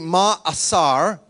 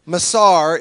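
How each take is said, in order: First: A short break separates the first two vowels. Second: The word runs smoothly with no break inside. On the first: This is how it is said in Hebrew. "In Hebrew, it would be ma'asar" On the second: This is the simplified American way of saying it. "is how we pronounce it because we're Americans and silly"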